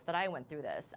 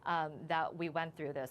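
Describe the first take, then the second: First: "I" in "that I went through this" stressed, falling. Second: Said in the usual way. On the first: Real, not acted. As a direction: lean on "I". Self-correction, stress moves to I.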